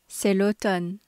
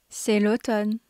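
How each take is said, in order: The two takes are said the same way.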